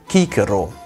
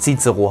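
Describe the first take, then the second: First: The word begins with a k sound. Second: The word begins with a ts sound. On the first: The speaker calls it right. "Das C im Lateinischen wird immer wie ein K ausgesprochen" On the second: The speaker calls it wrong. "niemals wie C im Deutschen"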